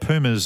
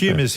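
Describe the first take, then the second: First: It is said with the American pronunciation. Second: It is said with the local Australian pronunciation. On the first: This is how people say it over there. "over there" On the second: This is how people say it here.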